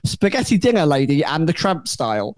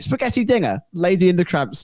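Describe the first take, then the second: First: It runs on with no pause after dinner. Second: There is a pause right after dinner. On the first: It refers to a spaghetti dinner lady. The speaker calls it wrong. "I'm going to read it as you've written it" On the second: It refers to a spaghetti dinner like Lady and the Tramp. The speaker calls it right. "I'll read it as I think it's meant to be phrased"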